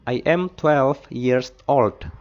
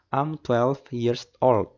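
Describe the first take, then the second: First: I am is said as two full words. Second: I am is shortened into one syllable. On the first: "bisa kita jawab I am twelve years old" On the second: "kita singkat I am menjadi am"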